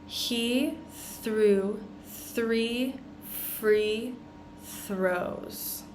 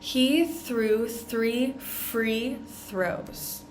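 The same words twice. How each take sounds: First: It is said slowly and carefully. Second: It is said at a normal speed.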